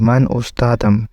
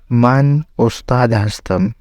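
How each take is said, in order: First: The verb is shortened onto the end. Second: The verb is said as a separate full word. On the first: This is the spoken, everyday form. "स्पोकन में हम कहेंगे" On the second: This is the written, formal form. "ये है रिटन फारसी"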